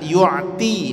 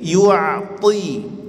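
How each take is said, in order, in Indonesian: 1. Bunyi t itu ringan dan tipis. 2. Bunyi t itu berat dan kuat. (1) "rentan sekali dibaca menjadi huruf ta, yu'ti, tidak" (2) "tapi yu'ti ... to, ti, kuatkan"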